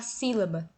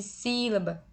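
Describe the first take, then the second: First: Said in the usual way. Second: "sílaba" slowed, its first "sí" drawn out; stress on SÍ. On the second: Shown as a demonstration. Teacher counting syllables for students, "sílaba" stressed on SÍ. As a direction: lengthen the "sí" in "sílaba". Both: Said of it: "você percebe que é a antepenúltima".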